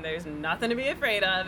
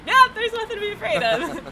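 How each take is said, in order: First: Said in the usual way. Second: Much higher and louder, bright reassurance; beaming reassurance. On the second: Retold or imitated. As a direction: announce it with cheerful confidence, relieved. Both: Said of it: "and then seeing, like".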